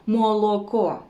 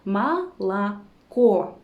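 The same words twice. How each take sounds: First: Молоко with every o full, "mo-lo-ko"; unreduced O. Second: Молоко as "ma-la-KO", stress on the last syllable; vowel reduction. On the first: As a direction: say молоко as spelled, no vowel reduction. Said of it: "we cannot pronounce them as". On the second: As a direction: turn the first two o's of молоко into "a". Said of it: "we pronounce them as". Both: Shown as a demonstration.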